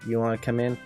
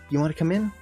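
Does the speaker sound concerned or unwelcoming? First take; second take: unwelcoming; concerned. First: It sounds cold and unwelcoming. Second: It sounds concerned and warmly inviting. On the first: Please don't come in, just go. "please don't come in. Just, just go" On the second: You look like you're in trouble, please come in. "Maybe I'm worried about them"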